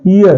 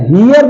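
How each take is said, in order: First: Said in the usual way. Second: हियर with the h sounded, pitched higher; high-pitched हियर on a clear h; wrong pronunciation. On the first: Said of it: "ईयर है". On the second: Shown as a demonstration. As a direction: misread heir with an audible h, हियर. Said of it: "नहीं".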